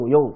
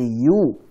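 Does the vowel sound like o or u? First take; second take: o; u. First: The vowel sounds like o. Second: The vowel sounds like u. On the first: The speaker calls it wrong. "Jangan yo yo yo" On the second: The speaker calls it right. "tapi yu"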